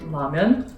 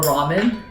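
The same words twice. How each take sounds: First: It is said with a Korean pronunciation. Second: It is said with an American pronunciation.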